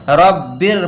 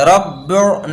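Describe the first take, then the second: First: रब्बिर ending in a light "bir"; thin R. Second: रब्बिर ending in a dark, rounded "bur"; wrong full R. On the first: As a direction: end रब्बिर on a thin R after a clear i. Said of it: "बारीक पढ़ते हैं". (रब्बिर, आख़िरी रा बारीक) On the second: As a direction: end रब्बिर on a heavy R, the vowel darkened. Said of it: "रब्बिर नहीं पढ़ेंगे". (रब्बिर, आख़िरी रा पुर) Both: Shown as a demonstration.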